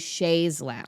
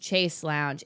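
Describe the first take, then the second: First: The first word is said like 'shays'. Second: The first word is said like 'chase'. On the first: The speaker calls it right. "It's actually Shays Lounge" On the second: The speaker calls it wrong. "I said it was Chase Lounge"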